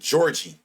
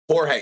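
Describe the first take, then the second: First: The name is pronounced like English Georgie. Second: The name is pronounced with Spanish sounds. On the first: The speaker calls it wrong. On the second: The speaker calls it right. "I know it now"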